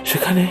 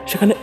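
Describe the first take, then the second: No difference in how they are said.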